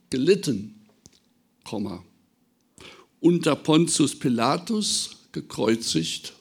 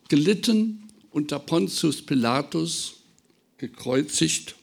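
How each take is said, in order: First: The pause comes after gelitten, before unter. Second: The pause comes after Pilatus, before gekreuzigt. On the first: The suffering spanned his whole life. "dieses Komma zu versetzen" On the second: The suffering happened only under Pilate. "eigentlich steht das Komma an einer falschen Stelle"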